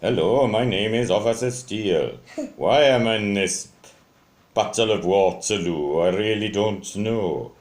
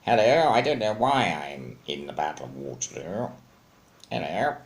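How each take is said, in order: First: Louder, swooping voice for a toy policeman; Officer Steele, wrong voice. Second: Put-on officer voice, swooping start then settling; Officer Steele. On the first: Toy officer introduces himself at Waterloo, in a mistaken put-on voice. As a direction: introduce yourself emphatically, in a bouncy put-on voice. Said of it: "I don't talk like that". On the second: Baffled officer at the Battle of Waterloo, in his proper character voice. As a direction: play the toy officer with an affected accent. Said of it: "Officer Steele talks like this". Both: Shown as a demonstration.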